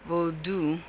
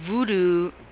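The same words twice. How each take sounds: First: The word is said the Haitian way, vodou. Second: The word is said the common English way. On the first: It names the religion as its people know it. The speaker calls it right. "So I try to say voodoo" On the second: It evokes the Hollywood image of the religion. The speaker calls it wrong. "voodoo, then that's Hollywood"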